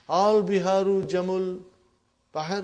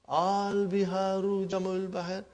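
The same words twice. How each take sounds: First: It is said with a questioning tune. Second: It is said with a flat statement tune.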